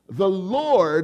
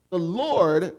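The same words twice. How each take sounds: First: It is said with strong, forceful emphasis. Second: It is said plainly, without extra emphasis.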